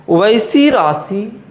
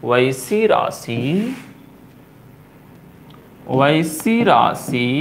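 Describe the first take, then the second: First: वैसी lifted and drawn out slowly; emphatic start. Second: वैसी राशि spoken very slowly and lower; slow dictation. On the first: Teacher stressing वैसी for the class. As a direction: lean on वैसी as you begin the definition. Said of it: "teacher stresses definition start". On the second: Teacher dictating वैसी राशि slowly for notes. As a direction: drag वैसी राशि out so students can write. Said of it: "teacher dictates while writing". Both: Shown as a demonstration.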